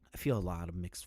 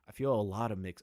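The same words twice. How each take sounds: First: It is read in a put-on voice. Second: It is read in a natural voice.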